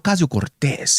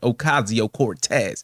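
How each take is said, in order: First: The name is said with a Spanish accent. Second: The name is said with an American accent. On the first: The speaker calls it wrong. "he says it like a span with like a span Spaniard accent" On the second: The speaker calls it right. "Americanize it"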